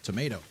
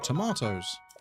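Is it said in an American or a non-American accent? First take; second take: American; non-American. First: It is said in an American accent. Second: It is said in a non-American accent.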